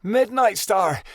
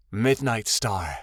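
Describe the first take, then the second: First: High, slow delighted call; joyful cry. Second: Said in the usual way. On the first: A narrator's reading. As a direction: cry out her name with glee. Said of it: "Snapfoot gave a joyful cry".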